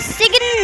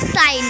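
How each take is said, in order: First: A g sound is pronounced before the n. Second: No g sound is heard before the n. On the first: The speaker calls it wrong. "हम इसे सिग्न नहीं" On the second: The speaker calls it right. "साइन पढ़ेंगे"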